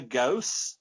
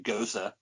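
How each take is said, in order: First: The name is said as one syllable. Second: The name is said as two syllables. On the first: The speaker calls it wrong. "I probably pronounced that wrong" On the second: The speaker calls it right. "It should be Gosa"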